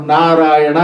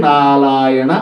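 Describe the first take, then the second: First: నారాయణ with a clear r, slow; correct pronunciation. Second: నాలాయణ, the r turned into l; imitated speech defect. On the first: Shown as a demonstration. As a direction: sound the r in నారాయణ, syllable by syllable. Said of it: "నారాయణ అనమంటే". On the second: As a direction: swap r for l in నాలాయణ, slow. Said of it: "కొందరికి రా పలకదు".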